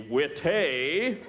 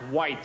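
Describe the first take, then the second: First: The word is given a put-on French pronunciation. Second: The word is said in plain English. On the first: He is pretending to know French wine. The speaker calls it wrong. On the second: It is simply the ordinary word. The speaker calls it right.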